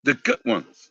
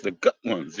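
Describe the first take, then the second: First: Said in the usual way. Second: "good" ending in a hard t, goot; "good" spoken as goot, lower and softer. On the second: Shown as a demonstration. Spelling out his cherished goot pennies, said as goot. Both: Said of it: "the G O O T ones".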